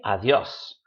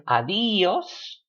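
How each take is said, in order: First: "adiós" as a-DYÓS, two syllables; stress on YO. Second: "adiós" split as a-DÍ-os; stress on I. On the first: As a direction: land on the joined yo sound in "adiós". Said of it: "with the stress on the yo". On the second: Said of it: "If you put it on the I". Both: Shown as a demonstration.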